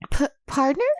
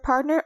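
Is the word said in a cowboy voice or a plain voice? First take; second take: cowboy; plain. First: It is said in a put-on cowboy voice. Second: It is said in a plain, normal voice.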